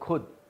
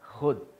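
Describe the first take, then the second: First: It begins with an aspirated kh stop. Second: It begins with a throaty fricative sound. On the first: The speaker calls it wrong. "हम बोलते हैं खुद" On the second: The speaker calls it right. "होता है खुद"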